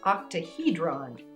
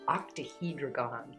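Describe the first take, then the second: First: The word is said with its normal syllables. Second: The word is said with an extra syllable. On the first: The speaker calls it right. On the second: The speaker calls it wrong.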